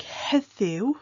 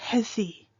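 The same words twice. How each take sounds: First: Heddiw with its final "oo" glide sounded; heddiw, drawn out with the oo at the end; full U ending. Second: Heddi ending on a plain "ee", no oo; heddi, clipped of its "oo" ending to finish on ee; colloquial dropped U. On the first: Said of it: "with a U at the end". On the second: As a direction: say heddi without the final w sound. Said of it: "might sound like". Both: Shown as a demonstration.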